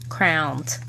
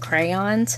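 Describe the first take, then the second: First: Crayons is said the way a Philadelphian says it. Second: Crayons is said the general, usual way. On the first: This is how someone from Philadelphia says it. "And yeah, crowns" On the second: This is the usual way to say it. "you mean crayons?"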